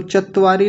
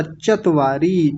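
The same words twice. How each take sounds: First: चत्वारी quickly as chatt-vaari; doubled t. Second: चत्वारी slowly as chat-vaa-ree; only one short t in चत्वारी; single t. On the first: Teacher rejecting the error, चत्वारी with double t. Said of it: "चत्वारी नहीं होता". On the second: Teacher correcting the class, चत्वारी with single t. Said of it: "क्योंकि एक त है". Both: Shown as a demonstration.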